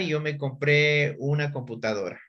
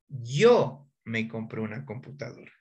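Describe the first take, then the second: First: No word gets special emphasis. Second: The word 'yo' gets strong emphasis.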